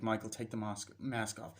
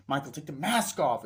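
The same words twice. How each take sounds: First: Softly voiced imitation of a mother asking; understated first request; restrained request. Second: Raised-voice imitation of a mother insisting; insist, leaning hard on the mask; mock parental command; firm order. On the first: Mother's first request, then raised repeat. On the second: Mother repeats the request more firmly.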